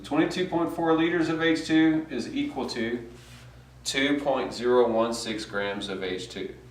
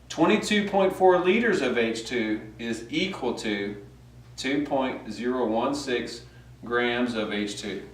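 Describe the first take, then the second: First: It is said fast. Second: It is said slowly.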